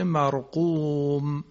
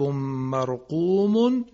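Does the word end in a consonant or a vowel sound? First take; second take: consonant; vowel. First: The word ends on a silent final m. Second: The word ends with a vowel and n. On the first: "میشه مرقوم" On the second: "کتاب مرقوم"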